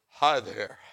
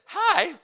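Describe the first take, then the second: First: It is said in a deep, manly voice. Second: It is said in a weak, nervous voice.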